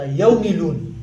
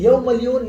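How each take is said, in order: First: يوم مليون said as "yaw milun"; Pashto pronunciation. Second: يوم مليون said as "yaw malyun"; as written. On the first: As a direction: say يوم مليون as "yaw mi-loon", without the y in the number. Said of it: "أما نلفظ هكذا". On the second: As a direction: say يوم مليون as "yaw mal-yoon", with the y sounded. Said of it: "نكتب هكذا". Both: Shown as a demonstration.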